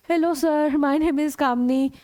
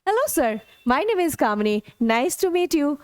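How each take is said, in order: First: Slow hello sir with level, flat tune; stiff, toneless greeting to a teacher; flat intonation. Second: Hello sir with lively rise and fall; friendly, tuneful nice to meet you; good intonation. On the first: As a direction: say it without any melody. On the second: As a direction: greet the teacher with natural melody. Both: Shown as a demonstration. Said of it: "मैंने सिर्फ अपने intonation".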